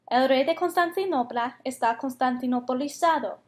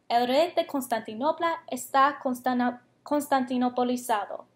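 First: The sentence is said at a medium pace. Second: The sentence is said at the slowest pace. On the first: "más rápido cada vez" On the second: "vamos a decirlo más rápido cada vez que lo digamos"

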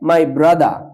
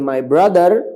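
First: The final r sound of brother is dropped. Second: The final r sound of brother is pronounced. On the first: The speaker calls it wrong. "যেমন হচ্ছে মাই ব্রাদা, এখানে না হয়ে" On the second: The speaker calls it right. "হবে my ব্রাদার works in the field"

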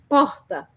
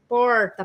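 First: A Rio R, made with almost no tongue. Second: An inland São Paulo R, tongue curled back.

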